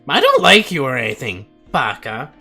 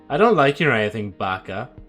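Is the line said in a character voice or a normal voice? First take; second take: character; normal. First: It is said in a put-on character voice. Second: It is said in the speaker's normal voice. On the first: The speaker calls it right. "I have to pull the Natsuki voice" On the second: The speaker calls it wrong. "Sorry, let me do that again"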